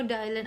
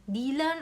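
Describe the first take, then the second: First: Dylan pronounced DIE-lun, first syllable like "die". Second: Dylan pronounced DEE-lahn, first vowel as in "see"; Dylan as "DEE-lan". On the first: Reader offering another way to say the name, Dylan said DIE-lun. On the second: Reader unsure of the alpha's name, Dylan said DEE-lan. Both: Shown as a demonstration. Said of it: "I don't know how to s-, pronounce it".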